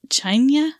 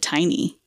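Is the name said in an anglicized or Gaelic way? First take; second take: Gaelic; anglicized. First: The name is said the Gaelic way. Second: The name is said the anglicized, English-reading way. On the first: The speaker calls it right. "the actual pronunciation is Chainya" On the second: The speaker calls it wrong. "the narrator pronounces it Tiny"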